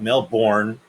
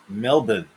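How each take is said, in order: First: It is said with an American accent. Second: It is said with an Australian accent. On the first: The speaker calls it wrong. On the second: The speaker calls it right.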